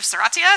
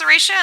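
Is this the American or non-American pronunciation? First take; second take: non-American; American. First: It is said with a non-American pronunciation. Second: It is said with the American pronunciation. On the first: Fewer poll voters chose this pronunciation. "instead of Serratia, so I apologize to the non-U S folks" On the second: Most poll voters chose this pronunciation. "the majority of people said it's pronounced Serratia"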